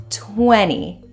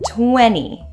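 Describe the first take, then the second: Both takes have the same delivery.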